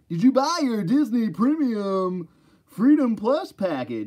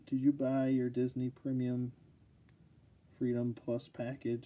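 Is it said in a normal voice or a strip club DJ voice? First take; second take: DJ voice; normal voice. First: It is said in a strip club DJ voice. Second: It is read in his normal voice.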